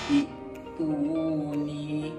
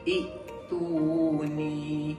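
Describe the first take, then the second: First: It opens with i and a glottal stop. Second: It opens with i and a glottal stop.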